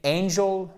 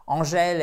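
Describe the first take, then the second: First: ANGEL as AIN-jul; stressed diphthong opening "angel", weak ending; English pronunciation. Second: ANGÈLE as on-ZHEL; French pronunciation. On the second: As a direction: say "Angèle" with nasal French start, open final E. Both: Shown as a demonstration. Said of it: "la différence entre Angèle et angel".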